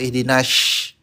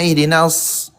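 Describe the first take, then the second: First: The s sound is said as sh. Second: The s sound is thick, with the tongue back raised. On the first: The speaker calls it wrong. "atau nash, itu pakai shin" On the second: The speaker calls it right. "Harusnya ihdinas"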